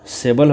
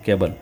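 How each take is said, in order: First: The word begins with an s sound. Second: The word begins with a k sound. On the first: The speaker calls it wrong. "इस सी का उच्चारण क्या होगा, सेबल होगा कि केवल" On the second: The speaker calls it right. "यहाँ इसका उच्चारण क केबल होता है"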